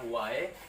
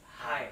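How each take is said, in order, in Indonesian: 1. Kata ini diawali dengan bunyi W. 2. Kata ini diawali dengan bunyi H. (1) "bahasa Bugisnya air adalah wae" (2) "kalau teman-teman dari Bone Selatan itu dia sebutnya"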